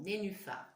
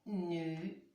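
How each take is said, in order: First: Said in the usual way. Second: "Nénuphar" split with pauses: "né… nu… phar"; syllable-by-syllable reading. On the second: Shown as a demonstration. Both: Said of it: "Essayez bien de lire les mots".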